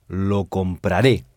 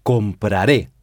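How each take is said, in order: First: Lo compraré, slowly, final ré stressed; slow stressed final syllable. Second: Said in the usual way. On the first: Shown as a demonstration. Teacher slowly stresses ré of compraré for class. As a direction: lean on the ré at the end of compraré, slowly. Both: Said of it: "on insiste sur re".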